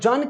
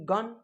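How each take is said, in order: First: The word starts with a j sound. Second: The word starts with a hard g sound. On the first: The speaker calls it wrong. "अब जन क्यों नहीं पढ़ेंगे" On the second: The speaker calls it right. "इसका ज का उच्चारण नहीं हो करके ... जी से ग"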